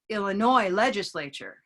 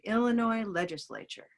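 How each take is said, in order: First: Illinois has its stress on the last syllable. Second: Illinois has its stress on the first syllable. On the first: The speaker calls it wrong. "we don't want to say" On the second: The speaker calls it right. "We want to say"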